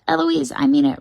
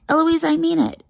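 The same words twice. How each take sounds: First: Higher shouted echo; cheeky copycat yell; mimicking shout. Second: High-pitched scolding shout; exasperated tutor raising the voice; angry shout. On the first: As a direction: shout the warning straight back. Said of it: "And I shout". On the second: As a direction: shout a sharp warning at a pupil. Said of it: "And then he shouts". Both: A narrator's reading.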